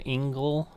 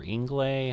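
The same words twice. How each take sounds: First: Ingle said as ING-gul; alternative pronunciation. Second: Ingle said as ING-glay; alternative pronunciation. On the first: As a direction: say Ingle to rhyme with single. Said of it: "however you wanna pronounce that". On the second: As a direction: end Ingle on a long "lay" sound. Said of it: "I might have said Inglay". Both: Shown as a demonstration.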